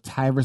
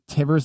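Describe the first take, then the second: First: The first vowel is long, as in divers. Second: The first vowel is short, as in rivers. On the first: "Tivers like Divers" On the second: "Tivers like Rivers"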